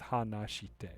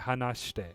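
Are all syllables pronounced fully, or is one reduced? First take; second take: full; reduced. First: Every syllable is pronounced fully and evenly. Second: A syllable is reduced, giving a smooth, quick word. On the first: It sounds robotic. The speaker calls it wrong. "if you're pronouncing every syllable out as it's written" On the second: This is how native speakers say it. The speaker calls it right. "when you're saying it native, uh, like natively"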